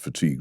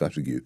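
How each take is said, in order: First: The word has its standard pronunciation. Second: The word has a misread, spelling-based pronunciation. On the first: The speaker calls it right. "I used to think that fatigue" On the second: The speaker calls it wrong. "was pronounced fatigue"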